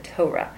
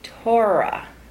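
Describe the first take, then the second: First: The middle 'or' sound is said plainly. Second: The middle 'or' sound is stretched out. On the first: The speaker calls it right. "We pronounce it Torah" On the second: The speaker calls it wrong. "we don't pronounce it this way"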